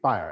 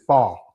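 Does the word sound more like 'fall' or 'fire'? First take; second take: fire; fall. First: The word sounds like fire. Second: The word sounds like fall. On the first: This is the speaker's own way of saying it. "when I say fire, I say fire" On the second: This is how other people around here say it. "you hear somebody else around here says fall"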